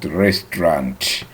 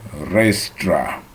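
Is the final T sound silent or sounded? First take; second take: sounded; silent. First: The final T sound is clearly pronounced. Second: The final T sound is left silent. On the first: The speaker calls it wrong. "not restaurant" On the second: The speaker calls it right. "The T at the end is quiet"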